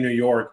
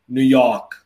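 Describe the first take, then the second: First: It is said in a plain, neutral accent. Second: It is said in a strong New York accent. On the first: An outsider says it. "you and I would look at New York and we say New York" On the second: A local says it. "a New Yorker would look at New York and be like"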